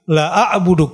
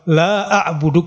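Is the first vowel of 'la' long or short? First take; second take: short; long. First: The vowel in la is cut short. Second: The vowel in la is held long. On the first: We will surely worship. The speaker calls it wrong. "Tapi kalau enggak pakai alif" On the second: We will not worship. The speaker calls it right. "kami tidak akan menyembah"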